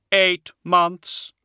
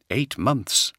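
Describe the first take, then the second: First: High hollow voice stressing eight; grave reply. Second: Said in the usual way. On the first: A narrator's reading. Attias voiced.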